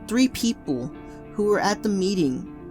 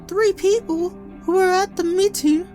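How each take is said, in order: First: It is said in the reader's ordinary voice. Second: It is said in a put-on character voice.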